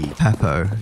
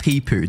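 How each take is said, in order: First: The first vowel is a short e sound. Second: The first vowel is a long ee sound. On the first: The speaker calls it right. "There's no double E" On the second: The speaker calls it wrong. "it's not Peepoo"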